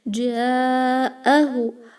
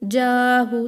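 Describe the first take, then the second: First: A clear glottal stop separates the two vowels. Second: The glottal stop is merged away, no break heard. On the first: The speaker calls it right. "Hamza should be very clear" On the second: The speaker calls it wrong. "You should not merge the Hamza ... This is wrong"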